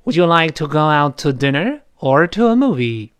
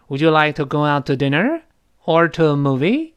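First: "dinner" rises, "movie" falls to a close; final fall. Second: "dinner" and "movie" both end rising. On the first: Teacher reads for students to repeat, falling at the end. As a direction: close the choice with "movie" brought down. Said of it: "最后我们降调了". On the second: Teacher shows an open list of options, all rising. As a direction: leave it open, lifting "dinner" and again "movie". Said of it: "那如果都升调呢". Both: Shown as a demonstration.

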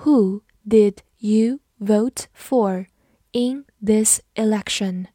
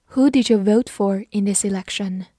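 First: Measured, separated words with clear gaps; slow reading. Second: Said in the usual way. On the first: Shown as a demonstration. Teacher slowly modelling the election question for learners, slow reading. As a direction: read slowly, word by word. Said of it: "好，慢读一遍".

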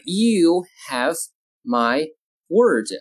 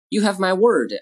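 First: Slow, with a gap between words; word-by-word model. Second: Said in the usual way. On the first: Shown as a demonstration. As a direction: dictate it calmly and slowly. Teacher models sentence word by word.

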